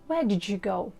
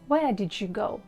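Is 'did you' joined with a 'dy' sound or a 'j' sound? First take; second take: j; j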